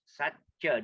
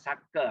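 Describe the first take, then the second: First: The middle consonant is a 'ch' sound. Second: The middle consonant is a 'k' sound. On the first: The speaker calls it right. "C is pronounced as C H" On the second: The speaker calls it wrong. "not Sakka"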